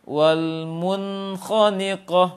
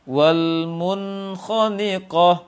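The two takes are said the same way.

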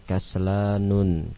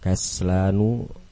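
First: The word ends in -un with final n. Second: The word ends in a plain -u vowel. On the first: The speaker calls it wrong. "Salah kalau dibaca dengan kaslanun" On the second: The speaker calls it right. "Semuanya tidak menerima tanwin"

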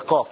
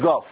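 First: The letter is said with the classical qaf sound. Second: The letter is said with a dialect qaf sound. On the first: The speaker calls it right. "الفصحى في وصف العلماء للقاف الفصيح هي قاف" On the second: The speaker calls it wrong. "مش قاف"

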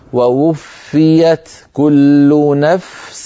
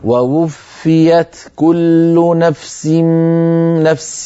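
First: The f sound is clearly heard before s. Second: The f sound merges into the following s. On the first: The speaker calls it right. "فنعطي الفاء حقها من الرخاوة" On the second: The speaker calls it wrong. "سأنطقها خطأ، سأنطق الخطأ"

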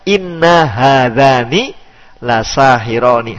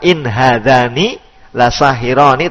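First: The first word has a doubled, held n sound. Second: The first word ends in a short single n. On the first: "musyaddadah. Musyaddadah berarti diberi tasdid" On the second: "Bukan in hadani la sahirani"

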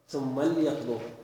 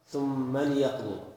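First: The L has no vowel after it. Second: The L is followed by an i vowel. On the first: The L marks a command. The speaker calls it right. "اللام للأمر تكون ساكنة" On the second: The L is taken as one of purpose. The speaker calls it wrong. "يكسر القائل اللام"

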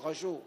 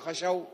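First: The word is said with a u vowel: khashu. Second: The word is said with an a vowel: khashaw. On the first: The speaker calls it right. "إنما تقول خشوا" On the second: The speaker calls it wrong. "ما تقول خشوا"

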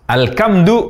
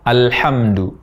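First: The consonant is a hard k sound. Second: The consonant is a breathy throat h sound. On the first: The speaker calls it wrong. "mengubah bunyi H menjadi Ka" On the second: The speaker calls it right. "Yang benar"

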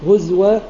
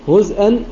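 First: The hamza is replaced by a w sound. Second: The hamza is kept as a glottal stop. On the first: The reader stops on this word. "فإذا وقف يقرأ هزوى" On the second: The reader continues into the next word. "فيقرأ في الوصل هزءا"

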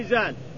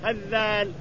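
First: A light z sound, not doubled. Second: A doubled voiced th sound. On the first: "إن قلنا أنها بالزاء لازم تخفف" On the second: "وإن قلنا أنها بالذال لازم تشدد"

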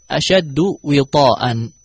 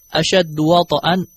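First: The w takes an i, and t a long a. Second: The w takes an a, and t has no vowel. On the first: "wawnya kasrah, ta'nya fathah dengan mat" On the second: "waw fathah, ta sukun, dan hamzah tanwin"

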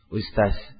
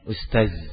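First: The last consonant is a hissing 's' sound. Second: The last consonant is a voiced 'dh' sound. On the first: The speaker calls it wrong. "Jadi sin" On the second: The speaker calls it right. "Awalnya ustaz"

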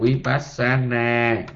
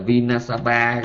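First: The word is pronounced vipassana, with p and n. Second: The word is pronounced vinasaba, with n and b. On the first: The speaker calls it right. "mình nói là vipassana" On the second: The speaker calls it wrong. "ảnh nói sai"

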